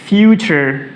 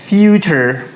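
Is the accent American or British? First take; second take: American; American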